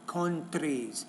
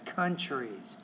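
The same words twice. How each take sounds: First: The t and r are said as separate plain sounds. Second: The t and r blend into a ch-like sound. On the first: The speaker calls it wrong. "you pronounce it differently in your own language" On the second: The speaker calls it right. "It's almost like a C H in there"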